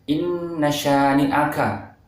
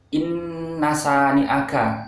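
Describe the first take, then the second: First: The consonant after inna is sh. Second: The consonant after inna is a plain s. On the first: The speaker calls it right. "bedakan antara huruf sya dengan sa" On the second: The speaker calls it wrong. "diganti dengan sa biasa"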